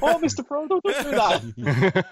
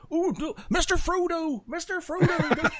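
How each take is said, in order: First: High, slowed, laughing Samwise copy. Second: High, slow, laughing Samwise voice. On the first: Retold or imitated. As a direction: imitate the Samwise line, dragging it out. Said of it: "That sounds like". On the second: Shown as a demonstration. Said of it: "I automatically go on".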